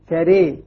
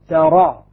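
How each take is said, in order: First: The final vowel leans strongly toward e. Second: The final vowel is a fully open a. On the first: "إمالة" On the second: "فتح"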